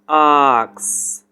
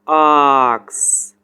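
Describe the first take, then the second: First: It is said in a British accent. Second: It is said in a British accent.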